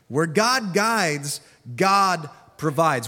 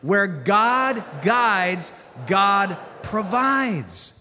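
First: It is said calmly, without extra energy. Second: It is said with gusto and strong energy.

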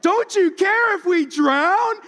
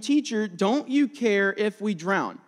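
First: It is said in a sassy tone. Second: It is read in a plain, neutral tone.

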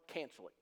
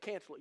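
First: It is said in a stern, serious tone. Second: It is said warmly, with a smile. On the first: "You laughed, but I didn't" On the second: "now I say it with a smile on my face"

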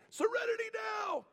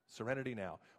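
First: It is screamed loudly. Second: It is said calmly and quietly.

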